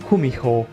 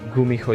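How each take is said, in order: First: The word begins with a voiceless k sound. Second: The word begins with a voiced g sound. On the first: The speaker calls it right. "it's kumiho" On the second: The speaker calls it wrong. "So it's not gumiho"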